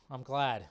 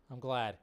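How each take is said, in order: Both takes have the same delivery.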